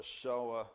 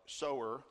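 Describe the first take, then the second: First: "sower" in a New Jersey accent, like soh-ah. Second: Said in the usual way. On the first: Real, not acted. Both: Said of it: "That's my New Jersey accent from way back when".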